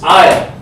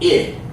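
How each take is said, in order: First: The vowel is a long 'eye' sound. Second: The vowel is a short 'ih' sound. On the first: The speaker calls it right. "It's I" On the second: The speaker calls it wrong. "It's not it. No short I there"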